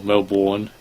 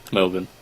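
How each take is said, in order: First: Melbourne with clear Mel and a full -bourne with an r; fooling pronunciation. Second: Said in the usual way. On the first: Shown as a demonstration. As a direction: say Melbourne as Mel-born, rolling the r to fool them. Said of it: "I could fool you". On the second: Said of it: "you're telling me to pronounce it".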